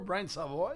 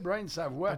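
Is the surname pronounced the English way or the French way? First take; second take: English; French. First: The surname is pronounced the English way. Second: The surname is pronounced the French way. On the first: "moi, je l'appelle toujours Brian Savoy" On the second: "il aurait tendance à franciser ton nom de famille"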